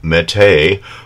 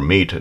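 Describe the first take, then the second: First: The vowel sounds like the one in 'gate'. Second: The vowel sounds like the one in 'feet'. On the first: "depending on how you want to pronounce it" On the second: "depending on how you want to pronounce it"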